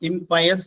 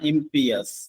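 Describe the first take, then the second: First: The second syllable sounds like 'pie'. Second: The second syllable sounds like 'pee'. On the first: The speaker calls it wrong. "ഇംപയസ് എന്നല്ല" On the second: The speaker calls it right. "ഇംപിയസ് എന്നാണ് അതിന്റെ ഉച്ചാരണം"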